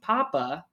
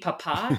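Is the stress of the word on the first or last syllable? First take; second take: first; last. First: The stress is on the first syllable. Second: The stress is on the last syllable. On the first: It refers to a potato. The speaker calls it wrong. "if I just drop the accent off of papá" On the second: It refers to a father. The speaker calls it right. "Mi papá tiene 40 años, is my dad is 40 years old"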